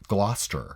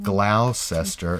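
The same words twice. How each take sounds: First: It is said shortened, with letters left silent. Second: It is said as spelled, every letter sounded. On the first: The speaker calls it right. "it's actually pronounced Gloucester" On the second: The speaker calls it wrong. "looks like Gloucester"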